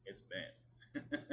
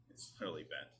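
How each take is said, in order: First: A light, joking Southern drawl on "bent"; funny southern accent. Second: Said in the usual way. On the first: Shown as a demonstration. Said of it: "a funny southern accent or something". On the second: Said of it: "give it, like, a funny southern accent".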